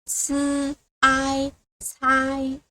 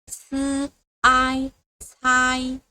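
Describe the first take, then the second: No difference in how they are said.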